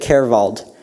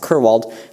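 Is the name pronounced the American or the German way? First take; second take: German; American. First: The name is said with a German pronunciation. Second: The name is said with an American pronunciation. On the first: The speaker calls it right. "she said it Kerwald, and I've learned that's the correct way" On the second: The speaker calls it wrong. "we'd actually Americanized it to how I pronounce it"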